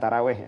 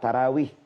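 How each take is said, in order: First: The last syllable has an 'eh' vowel. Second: The last syllable has an 'ee' vowel. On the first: The speaker calls it wrong. "Bukan taraweh ya" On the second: The speaker calls it right. "Bukan taraweh ya"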